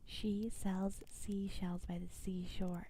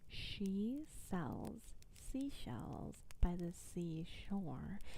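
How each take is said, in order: First: The sentence is said at a faster pace. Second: The sentence is said slowly and carefully. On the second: "Let's do it slowly again so I can I can break it down"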